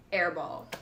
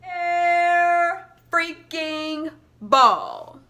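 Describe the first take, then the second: First: Said in the usual way. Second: Higher, louder, very slow disbelief; loud exasperated groan. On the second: Retold or imitated. Her reaction to her own airball, loud and dragged out. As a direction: drag every word out in frustration. The shot misses completely.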